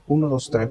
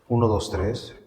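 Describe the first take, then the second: First: The voice has a crisp, clear filter. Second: The voice has a melodic, echoey filter. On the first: "este se llama nítido" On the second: "Y el melódico"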